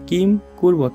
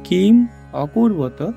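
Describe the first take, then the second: First: No vowel is heard between kim and kurvata. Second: An 'a' vowel is heard between kim and kurvata. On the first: "এখানে যদি একটা হসন্ত থাকতো তাহলে এটার উচ্চারণটা কিম কুর্বত হইতো" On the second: "যেহেতু হসন্ত নেই, এটার উচ্চারণটা হবে কিম অকুর্বত"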